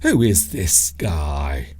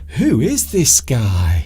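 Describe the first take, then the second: First: It is said in a hostile, negative tone. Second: It is said in a friendly, positive tone. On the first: The speaker is annoyed or dismissive. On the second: The speaker is pleased and interested.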